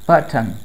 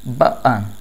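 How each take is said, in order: First: The t sound is clearly pronounced. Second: The t sound is dropped. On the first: "neutral accent में" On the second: "British accent में"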